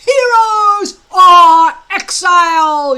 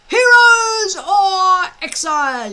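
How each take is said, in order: First: Slow, high, very loud battle cry; yell. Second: Loud, high group shout; boys yelling. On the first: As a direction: bellow it at the recruits. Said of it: "yelled Gobber the Belch". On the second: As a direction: shout it back in frantic chorus. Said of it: "yelled eighteen boys". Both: Acted.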